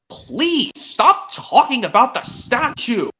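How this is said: It is said in a very stern tone.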